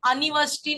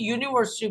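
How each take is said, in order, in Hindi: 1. यह शब्द सादे 'uh' स्वर से शुरू होता है। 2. यह शब्द 'yoo' ध्वनि से शुरू होता है। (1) "मैं उसमें अनिवर्सिटी नहीं बोल रही" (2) "बल्कि यूनिवर्सिटी बोल रही हूँ"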